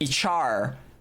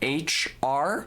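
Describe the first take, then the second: First: The first letter sounds like itch, run together. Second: The first letter is said as a clear aitch. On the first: "the name sounds to me like Ichar" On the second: "like human resources"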